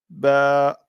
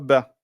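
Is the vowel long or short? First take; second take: long; short. First: The vowel a is drawn out long. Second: The vowel a is cut short. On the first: The speaker calls it right. "comme elle est suivie de la prolongation qui est là, eh bien là, on va dire ba" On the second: The speaker calls it wrong. "et non pas ba"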